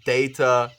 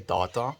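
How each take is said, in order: First: The word is pronounced the English way. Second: The word is pronounced the Afrikaans way. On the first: This is how it is said in English. "data is how I would actually say it in English" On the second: This is how it is said in Afrikaans. "because I'm Afrikaans, we say data"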